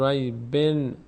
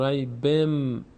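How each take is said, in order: First: ریبن ending on a clear n sound; wrong pronunciation. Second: ریبم ending on a held m sound; correct tajweed. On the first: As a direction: say ریبن with the tanween as a plain n. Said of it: "نمیگیم ریبن". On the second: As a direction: slowly say ریبم, turning the final n into m. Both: Shown as a demonstration.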